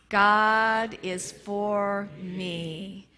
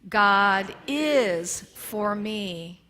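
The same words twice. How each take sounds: First: The word me is stressed. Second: The word is is stressed.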